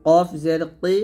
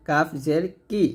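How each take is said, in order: First: কি thickened from the back of the tongue; heavy Q. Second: Light কাফ and কি; thin K. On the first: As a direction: push কফ and কি far back. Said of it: "কফটা মোটো হবে". (মোটা করে কি) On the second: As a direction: keep কি thin. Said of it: "কাফ পাতলা". (পাতলা করে কি) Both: Shown as a demonstration.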